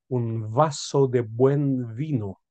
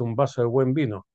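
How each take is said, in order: First: The v in vaso and vino sounds distinct. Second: The v in vaso and vino sounds like b. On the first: "Son formas distintas de pronunciar la letra B de la letra V" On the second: "normalmente la gente lo dice"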